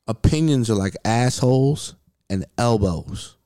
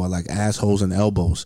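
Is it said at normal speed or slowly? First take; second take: slowly; normal speed. First: It is said slowly and deliberately. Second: It is said at normal speed.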